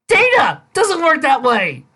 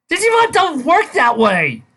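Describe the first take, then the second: First: Data hit high and loud, slow and falling; exasperated outburst. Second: Digimon punched high and loud, falling to the end; exasperated outburst. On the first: Reviewer correcting the author again, slow stress on Data. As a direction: hammer Data, then drag the rest out. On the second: Reviewer correcting the author, loud stress on Digimon. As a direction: slam the word Digimon, then let it drop. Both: Real, not acted. Reviewer outraged at fic logic.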